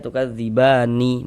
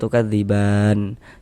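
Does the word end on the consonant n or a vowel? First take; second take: vowel; consonant. First: The word ends with an added final vowel. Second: The word ends on a silent final n. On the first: The speaker calls it wrong. "Jangan dibaca tukadzibani baru berhenti, jangan. Salah" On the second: The speaker calls it right. "berhenti di huruf nun kita baca tukadziban"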